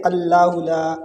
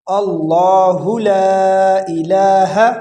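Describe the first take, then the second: First: اللہ with a light, thin L, quickly shown; wrongly thin Allah. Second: Slow recitation, اللہ with a full dark L; correct heavy Allah. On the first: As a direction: say اللہ لا thin, as a learner's mistake. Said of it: "اس کو باریک پڑھتے ہیں". (اللہ کو باریک، غلط انداز میں) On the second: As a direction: draw out اللہ لا الہ, heavy on اللہ. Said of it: "اس کو پر پڑھا جائے گا". (اللہ کو پُر، کھینچ کر) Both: Shown as a demonstration.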